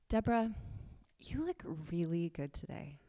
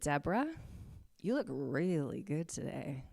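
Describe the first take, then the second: First: The tone sounds warm, kind and loving. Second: The tone sounds flirtatious and attracted. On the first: The compliment is sincere and caring. "Kindness, ... Loving, beautiful" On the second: The compliment is a come-on. "Is there a flirtatiousness in there? Yeah"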